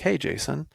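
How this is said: It is said in a warm, friendly tone.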